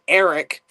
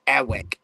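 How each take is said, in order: First: The middle consonant is a clear R. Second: The middle consonant sounds like a W. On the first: The speaker calls it right. "I said it correctly there" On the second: The speaker calls it wrong. "my name was never Eric, it was Ewick"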